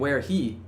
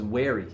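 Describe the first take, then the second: First: The h is pronounced and the words are separate. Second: The h is dropped and the words join together. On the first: "instead of saying" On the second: "it now is"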